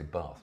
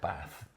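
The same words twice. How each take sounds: First: The word is said in an English accent. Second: The word is said in a non-English accent. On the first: "I say Bath because I'm English" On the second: "not Bath"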